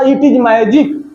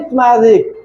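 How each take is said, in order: First: It is said as two full words. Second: It is contracted into one short syllable. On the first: "अगर वो ऐसे बोलता इट इज magic" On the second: "वो इट्स है मेरे दोस्त"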